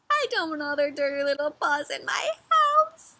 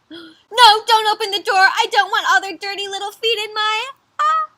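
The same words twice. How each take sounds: First: Whiny grumble at ordinary volume; sulky storybook bear, slightly raised pitch; grumbling complaint. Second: High, loud alarmed pleading; frantic storybook bear, pitched way up; panicked protest. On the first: Bear complains about visitors, second take. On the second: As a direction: beg them in acted alarm to stop. Bear panics about opening door. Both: Acted.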